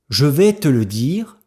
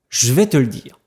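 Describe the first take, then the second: First: Every syllable is pronounced fully and separately. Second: Some sounds are dropped and run together.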